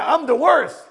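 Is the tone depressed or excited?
excited. It is said in an upbeat, excited tone. The discovery is welcomed as a chance to change. The speaker calls it right. "And get excited that you just discovered it"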